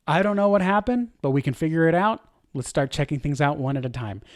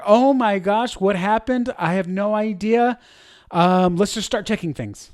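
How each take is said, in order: First: Steady, settling down toward the end; a leader calmly reassuring the team mid-outage; calm and confident. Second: Rushed, higher, louder panic; a flustered leader whose stream just died; panicked. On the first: Calm confident leader voice. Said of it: "You hear the difference?". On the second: Panicking leader voice. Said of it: "One is panic". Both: Shown as a demonstration.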